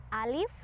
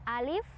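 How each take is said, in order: Both takes have the same delivery.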